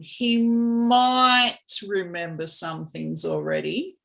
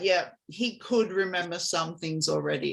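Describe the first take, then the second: First: It sounds unsure, like a question. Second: It sounds confident, like a statement.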